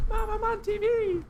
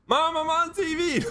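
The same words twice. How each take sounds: First: Very high squeaky, thin and strained; squeaky kid voice. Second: Put-on much higher, louder childish shout; excited kid yell. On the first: Pretend. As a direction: squeak it like a tiny cartoon kid. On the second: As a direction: shout to mom like a thrilled kid.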